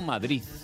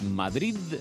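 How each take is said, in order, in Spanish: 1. La palabra termina en sonido z (th). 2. La palabra termina en sonido d suave. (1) "no Madrid" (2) "Es Madrid"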